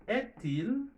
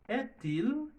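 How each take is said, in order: No difference in how they are said.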